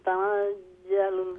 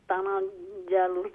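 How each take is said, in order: No difference in how they are said.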